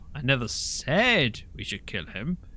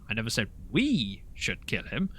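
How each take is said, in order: First: The stress is on "said". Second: The stress is on "we".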